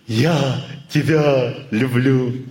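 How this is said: It is said from a passing mood. "он от настроения говорит"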